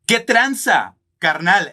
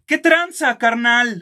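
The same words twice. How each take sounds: First: It is said in his normal voice. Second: It is said in a changed, put-on voice.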